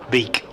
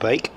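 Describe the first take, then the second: First: The vowel is a long 'ee' sound. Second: The vowel is an 'ay' sound. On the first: This is the form the player prefers in England. The speaker calls it right. "Van Beek is what Logan prefers when he's in England" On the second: This is the Dutch form of the name. The speaker calls it wrong. "Bake is the Dutch pronunciation"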